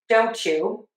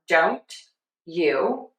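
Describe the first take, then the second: First: The t and y blend into a ch. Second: The t and y are said separately. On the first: "let's assimilate them" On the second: "Let's separate them apart"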